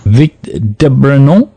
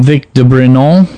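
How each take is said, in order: First: "Vic de Brenon" spelled out slowly the French way, "Brenon" with a nasal final "on"; slow French pronunciation. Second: "Vic de Brenon" said the French way, "Brenon" with a nasal final "on" and no n; name in French style, "Brenon" ending in a nasal "on"; French pronunciation. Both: Shown as a demonstration. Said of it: "I'm using the French pronunciation there".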